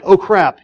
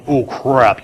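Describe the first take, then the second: First: Quick, higher-pitched "oh, crap"; offhand mild alarm. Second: Mock freaking out. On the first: Acted. Driver reacting to seeing a deer, offhand mild alarm. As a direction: toss out a light, high "oh, crap". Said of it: "you're not like". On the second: Driver whose adrenaline pumps at a deer, mock freaking out. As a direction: act a driver's sinking realization, understated. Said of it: "You're really freaking out".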